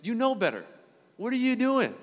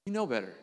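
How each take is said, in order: First: Higher, louder mock scolding voice; self-scolding. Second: Said in the usual way. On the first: Talking to himself about his struggles: scolding. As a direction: scold yourself like an exasperated parent. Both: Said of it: "You ever had those conversations?".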